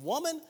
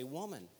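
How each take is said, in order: First: Sharp high rising "Woman," as a curt brush-off; disrespectful. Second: Soft, low, falling "Woman." said gently; tender. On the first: Jesus brushing off his mother at the wedding, curt and dismissive. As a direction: toss off "Woman," dismissively, pitch jumping up. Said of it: "do you think this is disrespect". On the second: Jesus addressing his mother from the cross, soft and tender. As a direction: let "Woman." drop quietly and lovingly. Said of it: "I think the inflection there is". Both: Shown as a demonstration.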